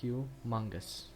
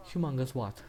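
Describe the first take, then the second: First: Slow, drawn-out word; re-enacted answer. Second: Lightly voiced questioning comeback; re-enacted question. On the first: Trying to say the man's name from the clip, slow re-enacted answer. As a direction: give the name slowly and deliberately. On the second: Acting out the interviewer's reply, mild questioning imitation. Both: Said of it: "I will try to say it".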